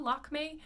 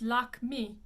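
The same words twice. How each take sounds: First: "Lakme" as LAHK-may with looser ending; usual pronunciation. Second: "Lakme" slowly, final é closed nearly to EE; more closed ending. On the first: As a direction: say "Lakme" the common English way. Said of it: "People usually do it pretty well". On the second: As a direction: model French "Lakme" with tight final vowel. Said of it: "It's a little more closed". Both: Shown as a demonstration.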